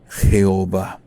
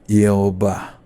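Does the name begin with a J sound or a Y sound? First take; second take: J sound; Y sound. First: The name begins with a Spanish J sound. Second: The name begins with a Y sound. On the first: The speaker calls it wrong. "no dijeran Jehová" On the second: The speaker calls it right. "es una Y, o suena como una Y"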